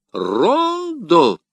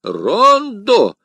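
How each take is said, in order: First: High contemptuous scoff; the Jesuit scoffing at the poem, high and loud; scornful. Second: High, loud automatic repeat; the curé echoing blankly; mechanical echo. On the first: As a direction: spit the word in disdain. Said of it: "презрительно произнёс иезуит". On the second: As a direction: parrot it back unthinking. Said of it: "машинально повторил Кюре". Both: A narrator's reading.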